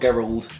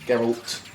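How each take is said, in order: First: The name ends with a d sound. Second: The name ends with a t sound. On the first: The speaker calls it wrong. "Not Gerald" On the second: The speaker calls it right. "Geralt with a T"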